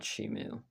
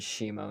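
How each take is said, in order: First: The name ends with an 'oo' vowel. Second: The name ends with an 'oh' vowel. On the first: The speaker calls it wrong. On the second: The speaker calls it right. "I figured out the correct pronunciation"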